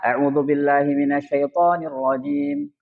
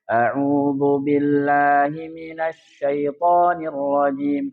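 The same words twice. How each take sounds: First: It is recited at a fast pace. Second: It is recited at a moderate pace. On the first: "Kalau yang cepat gimana?" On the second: "yang tadwir"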